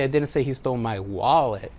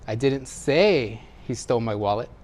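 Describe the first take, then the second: First: The word 'wallet' carries the main stress. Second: The word 'say' carries the main stress. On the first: Something other than the wallet was taken. "He took something else, but not my wallet" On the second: It was communicated some other way than speaking. "Maybe I wrote it or gestured it"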